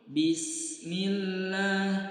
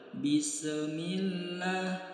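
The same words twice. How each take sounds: First: The s flows straight into the m, no bounce. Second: The s is released with an echoing bounce. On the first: The speaker calls it right. "Bismillah itu tidak mantul" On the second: The speaker calls it wrong. "jangan sampai huruf sin dibaca mantul"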